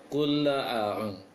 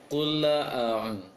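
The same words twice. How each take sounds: The two takes are said the same way.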